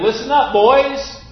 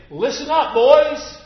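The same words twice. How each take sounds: First: Higher and louder call, insisting; more emphatic. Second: High, loud call to the class; teacher's call. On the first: Teacher repeating his call more firmly to the boys. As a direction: demand attention, harder the second time. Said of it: "even more emphatically". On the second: Teacher calling a class of boys to attention. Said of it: "He would say". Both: Retold or imitated.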